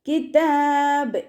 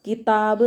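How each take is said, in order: First: കിതാബ് drawn out slowly and chanted higher; the right, drawn-out chanted കിതാബ്; correct pronunciation. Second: Spoken quickly as കിതാബ് with a short final vowel; the wrong, clipped കിതാബ്; wrong pronunciation. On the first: Teacher gives the correct chanted കിതാബ് after the wrong one. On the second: Teacher shows how not to say കിതാബ് to a student. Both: Shown as a demonstration. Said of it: "എന്ന് പറയരുത്".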